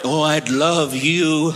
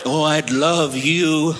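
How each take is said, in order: First: It is said in a creepy, hushed voice. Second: It is said in a creepy, hushed voice.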